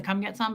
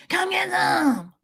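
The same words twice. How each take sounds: First: Said in the usual way. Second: High, drawn-out eerie mock threat; scary threat. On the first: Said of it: "like it more without the". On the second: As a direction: wail it slowly to creep him out. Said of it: "wanted to scare him".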